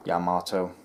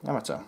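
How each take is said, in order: First: Yamato as 'ya-MAAH-toe', long middle vowel; long-vowel pronunciation. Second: Yamato as 'YAM-uh-toe', quick and short; short-vowel pronunciation. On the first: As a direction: stress and lengthen the middle of Yamato. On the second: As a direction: stress the first syllable of Yamato. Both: Shown as a demonstration. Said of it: "I looked on the Google Translate".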